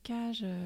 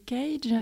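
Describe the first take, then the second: First: The word is pronounced with French sounds. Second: The word is pronounced with English sounds. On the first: It is the organization's acronym. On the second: It refers to an American composer.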